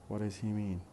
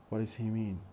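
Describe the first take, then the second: First: It is run together with a weak 'does'. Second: It is run together with a weak 'does'.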